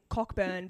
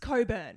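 First: A 'k' sound is heard before the 'b'. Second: No 'k' sound is heard before the 'b'. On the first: The speaker calls it wrong. "everyone calls him Cockburn" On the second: The speaker calls it right. "no, it's not that. It's Coburn"

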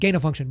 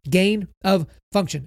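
First: The words 'gain of' run together and sound like 'gainer'. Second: The words 'gain of' are said separately and clearly. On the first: "when people say it fast, it sounds like gain of function" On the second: "but it's gain of function"

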